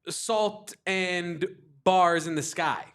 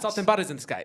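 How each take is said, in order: First: It is said at a normal speed. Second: It is said very quickly.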